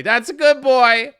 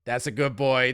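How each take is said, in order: First: Higher, louder, slow pet praise; talking to the dog in a slow, high, louder praising voice. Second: Said in the usual way. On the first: Pretend. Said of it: "My dog didn't hear".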